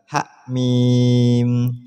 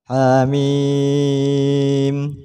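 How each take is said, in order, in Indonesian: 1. Suku kata pertama dipotong tiba-tiba. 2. Vokal pertama ditahan selama satu ketukan. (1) "Apalagi dibaca hak mim, tambah salah" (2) "Jadi cara bacanya adalah hamim"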